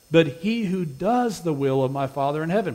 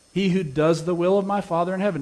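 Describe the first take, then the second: First: Said in the usual way. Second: Does and will pressed firmly, a touch higher and louder; stress on doing the will. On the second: Shown as a demonstration. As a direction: lean hard on "does" and "will" so the weight lands on doing. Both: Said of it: "Notice the emphasis".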